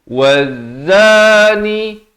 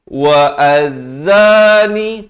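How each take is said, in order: First: The 'wa' runs straight into the z. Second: An extra vowel sounds separately before the z. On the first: The speaker calls it right. "wa baris fathah ni terus nak atas zai" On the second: The speaker calls it wrong. "Jangan pula kita baca wa az-zani. Tak betul"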